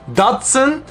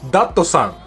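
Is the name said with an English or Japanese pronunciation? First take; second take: English; Japanese. First: It is said as two syllables, English style. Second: It is said as three syllables, Japanese style.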